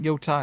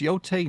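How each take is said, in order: First: The last syllable sounds like 'tie'. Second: The last syllable sounds like 'tay'. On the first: The speaker calls it wrong. "not Yotai" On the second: The speaker calls it right. "It's Yotei"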